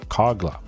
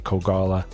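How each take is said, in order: First: The name is said with two syllables. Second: The name is said with three syllables. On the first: The speaker calls it right. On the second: The speaker calls it wrong.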